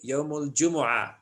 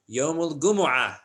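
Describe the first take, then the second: First: It is said non-Egyptian-style with a J sound. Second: It is said Egyptian-style with a hard G.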